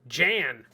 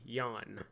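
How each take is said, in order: First: The name starts with a J sound. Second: The name starts with a Y sound. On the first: This is the pronunciation used when being pedantic. The speaker calls it wrong. "If you want to be a dick about it" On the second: This is the proper pronunciation for that nationality. The speaker calls it right. "we know the proper pronunciation with this uh, nation would be Yawn"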